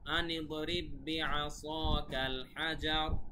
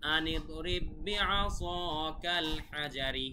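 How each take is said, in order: First: The final word ends on a bare consonant. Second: The final word ends with an added 'i' vowel. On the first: The reading stops at this word. "কিন্তু থামলে আসলে এভাবে বলতে হবে।" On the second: The reading continues on without stopping. "পুরাটা যখন আমরা একবারে বলবো।"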